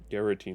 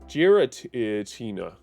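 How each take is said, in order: First: The word begins with a hard G sound. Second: The word does not begin with hard G. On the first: "I always called it Garantina" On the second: "you don't say this a G"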